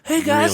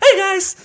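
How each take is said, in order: First: It is said in a normal-pitched voice. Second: It is said in a high-pitched voice.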